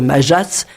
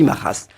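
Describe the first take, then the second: First: The j is a soft French zh sound. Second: The j is a throaty h-like sound. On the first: The speaker calls it wrong. "au lieu de dire Majas, ça s'écrit Majas" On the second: The speaker calls it right. "on dit Majas"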